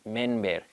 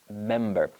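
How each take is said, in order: First: The consonant before the b sounds like n. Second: The consonant before the b sounds like m. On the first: The speaker calls it wrong. "They pronounce it like an N" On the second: The speaker calls it right. "close your lips with the letter M"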